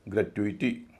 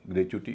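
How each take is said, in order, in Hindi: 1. यह चार अक्षरों में बोला जाता है, 'tyoo-ee' की आवाज़ के साथ। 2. यह तीन अक्षरों में बोला जाता है, 'choo' की आवाज़ के साथ। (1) "ग्रेट्युइटी है" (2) "इसका मतलब ग्रेच्युटी नहीं है"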